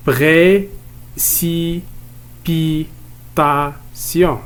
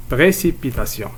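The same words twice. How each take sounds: First: "Précipitation" in five long beats, pré, ci, pi, ta, tion; teacher's drawn-out split of "Précipitation"; split into syllables. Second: Said in the usual way. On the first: Shown as a demonstration. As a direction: chant out "Précipitation" very slowly, syllable after syllable. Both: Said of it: "On va découper ces mots en syllabes".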